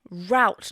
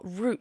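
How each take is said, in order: First: The vowel rhymes with 'doubt'. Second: The vowel rhymes with 'boot'. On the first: "because it rhymes with doubt" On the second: "not root"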